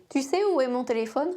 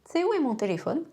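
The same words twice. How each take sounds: First: Said in the usual way. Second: "Tu sais" said tsé, U dropped; T slides straight into S; fast "t'sais"; contracted tu sais. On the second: Shown as a demonstration. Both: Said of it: "Comme la mouche tsetse".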